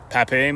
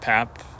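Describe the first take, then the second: First: The name is said in its fuller, longer form. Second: The name is said in a clipped, shorter form. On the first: The speaker calls it right. "he did pronounce it Pape" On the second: The speaker calls it wrong. "you can kind of sh- shorten it"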